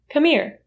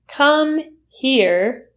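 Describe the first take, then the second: First: The h sound in 'here' is dropped. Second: The h sound in 'here' is pronounced. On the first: "the h sound in here is um, completely eliminated" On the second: "Come here usually is reduced"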